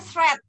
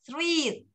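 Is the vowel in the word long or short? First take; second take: short; long. First: The vowel is short, like in 'bet'. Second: The vowel is long, like in 'beet'. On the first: The speaker calls it right. "Bacanya thread" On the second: The speaker calls it wrong. "ternyata bukan thread"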